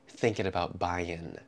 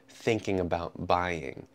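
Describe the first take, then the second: First: Buying ends with a plain n sound. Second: Buying ends with a full ng sound. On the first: The speech is informal. "instead of" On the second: The speech is a bit more formal. "I'll probably keep the ng sound at the end of an ing word"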